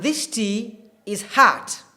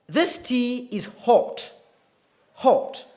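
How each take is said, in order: First: American "hot" with an open "ah" vowel, like "haht"; slow American demo, "hot" opened to "haht"; American accent. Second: British RP "hot" with a rounded O and no R; slow, careful British demo of "hot"; British accent. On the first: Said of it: "typical American accent". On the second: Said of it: "is typical British accent". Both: Shown as a demonstration.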